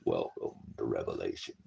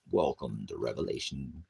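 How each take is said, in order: First: Much lower, softer, deep doom voice; low ominous announcer welcome. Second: Said in the usual way. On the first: Shown as a demonstration. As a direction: intone it like a dark herald of the end times.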